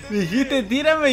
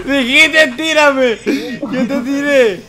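First: Said in the usual way. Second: Loud, high gleeful taunt; loud laughing taunt. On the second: Real, not acted. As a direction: crow it loudly. Mocking friend after laugh.

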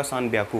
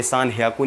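First: सान ब्याकू with a b sound, stated firmly as the right form; correct form. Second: सान ह्याकू with an h sound, marked as the form not to use; wrong form. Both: Shown as a demonstration. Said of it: "ये थोड़ा special character है".

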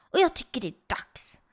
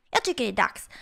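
First: Hushed, voiceless scheming; conspiratorial whisper. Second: Said in the usual way. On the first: Acted. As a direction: whisper it like a secret plan. Secret plan to spend his V-bucks. (viskar konspiratoriskt)

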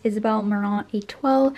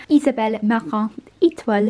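First: Said in the usual way. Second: Brand name in a French accent. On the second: Shown as a demonstration. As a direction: say it the French way, with a Canadian French tinge. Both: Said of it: "if you want a French accent".

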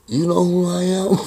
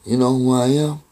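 First: Higher-pitched imitation of an annoyed man; mock-irritated demand, pitched up; irritated challenge. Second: Retold challenge in a near-usual voice; understated irritated question, held level; mildly irritated. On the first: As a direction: retell it as a pointed, high question. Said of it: "He'll give me this look". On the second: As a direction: lightly imitate an annoyed man quizzing you. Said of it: "He's just irritated".

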